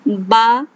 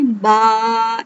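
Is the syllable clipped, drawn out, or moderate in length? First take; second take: moderate; drawn out. First: The vowel has a moderate, normal length. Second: The vowel is stretched out very long. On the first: The speaker calls it right. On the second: The speaker calls it wrong.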